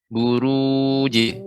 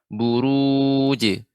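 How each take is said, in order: Both takes have the same delivery.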